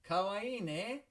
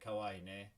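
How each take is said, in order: First: It is said brightly and with enthusiasm. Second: It is said flatly, without enthusiasm. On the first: The speaker really thinks the baby is cute. The speaker calls it right. "don't forget to sound a little enthusiastic" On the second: The speaker does not seem to mean the compliment. The speaker calls it wrong. "If you just say kawaii ne, mm, I'm not convinced that's what you mean"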